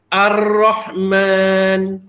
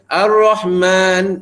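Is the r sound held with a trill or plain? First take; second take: trilled; plain. First: The r is held and trilled before the vowel. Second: The r is short with no audible trill. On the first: The speaker calls it right. "Contoh ra, takrir dia" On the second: The speaker calls it wrong. "Jangan baca ... Tak nampak pun sifat dia"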